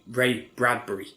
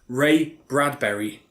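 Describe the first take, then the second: First: The name ends sounding like 'bury'. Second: The name ends sounding like 'berry'. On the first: The speaker calls it right. "it's Bury" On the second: The speaker calls it wrong. "It's not Berry"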